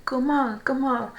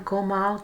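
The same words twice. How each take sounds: First: Louder call of Gomal, Gomal; called out word. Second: Said in the usual way. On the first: Shown as a demonstration. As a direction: call out Gomal, Gomal like a road sign. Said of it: "you say". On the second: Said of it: "So if you need to talk slowly".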